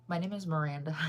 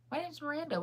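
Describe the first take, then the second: First: Said in the usual way. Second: Much higher, slightly softer playful repeat. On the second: Pretend. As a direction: pitch it way up, jokingly. Playfully repeats name after laughing.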